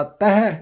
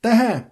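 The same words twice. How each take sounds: First: ਤਹ as oral "tahe", no nasal; un-nasalised ending. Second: ਤਹ as "tahen", vowel nasalised; nasal ending. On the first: Teacher showing the mistake, ਤਹ without nasal sound. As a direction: keep the vowel of ਤਹ out of the nose. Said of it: "ਇਸ ਤਰ੍ਹਾਂ ਨਹੀਂ ਉਚਾਰਨ ਕਰਨਾ". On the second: Teacher modelling ਤਹ with its nasal dot sounded. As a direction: let ਤਹ finish through the nose. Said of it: "ਬਿੰਦੇ ਸਹਿਤ ਉਚਾਰਨ ਕਰਨਾ". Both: Shown as a demonstration.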